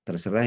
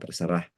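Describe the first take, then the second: First: It is said in a soft, gentle tone. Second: It is said in a flat, level tone. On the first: I trust you and respect your decision. "Kalau nadanya lembut gitu ya" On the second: I can't be bothered to discuss it. "Kalau pakai nada datar"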